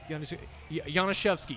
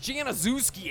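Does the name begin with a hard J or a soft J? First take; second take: soft J; hard J. First: The name begins with a soft J sound. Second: The name begins with a hard J sound. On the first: The speaker calls it wrong. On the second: The speaker calls it right.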